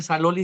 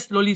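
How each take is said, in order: First: It is said with an extra vowel after 's'. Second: It is said with two syllables, no added vowel. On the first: "Those who have been to Thailand, they say saloli" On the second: "They don't say slowly"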